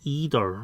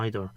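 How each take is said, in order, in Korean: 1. 미국에서 주로 듣는 발음이에요. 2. 영국에서 흔히 쓰는 발음이에요. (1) "미국 사람들의 또 다른 발음은 either 이런 식으로" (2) "영국식 발음은 보통 영국 사람들은 either, either라고 있습니다"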